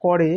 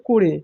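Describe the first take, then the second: First: করে said as "kɔre"; open vowel in করে. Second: করে said as "kore"; closed vowel in করে. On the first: Teacher showing the finite verb, করে with open ɔ. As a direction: say করে with an open "aw" in the first syllable. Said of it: "এটা সমাপিকা ক্রিয়া". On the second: Teacher showing the non-finite verb, করে as "kore". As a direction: say করে with a rounded closed "o" first. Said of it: "তখন সেটার উচ্চারণ হবে". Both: Shown as a demonstration.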